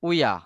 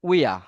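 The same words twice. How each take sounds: First: The words are run together into one short form. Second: The words are run together into one short form.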